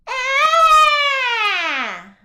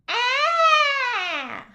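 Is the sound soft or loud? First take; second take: loud; soft. First: The sound is loud. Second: The sound is fairly soft.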